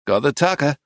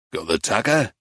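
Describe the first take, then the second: First: "Got the tucker." echoed back as a statement, falling at the end; confirming answer. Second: "Got the tucker?" asked as a question, pitched low. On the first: Arcady reassures old man, answering "Got the tucker.". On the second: Old man checks with Arcady, asking "Got the tucker?". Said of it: "asked Timmy". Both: A narrator's reading.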